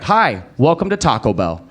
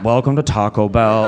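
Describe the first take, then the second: First: Quick cheerful scripted greeting, "Hi" bright; friendly routine drive-thru welcome; daytime greeting. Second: Slow, reluctant mumbled "Welcome to Taco Bell"; grudging late-shift welcome, pitched lower; late-night greeting. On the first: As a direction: chirp the greeting like a daytime cashier. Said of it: "if you go any other time". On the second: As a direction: drag the greeting like a bothered night worker. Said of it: "if you go late at night". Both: Shown as a demonstration.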